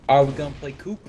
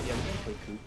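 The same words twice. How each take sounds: First: Loud call. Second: Said in the usual way. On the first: Real, not acted. Loud question then answered.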